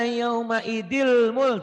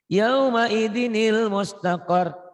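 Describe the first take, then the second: First: No linking n sound follows the word idi. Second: A linking n sound follows the word idi. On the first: The speaker calls it wrong. "Tuh nggak bisa, nggak bisa" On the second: The speaker calls it right. "tanwinnya baca satu dibantu ni"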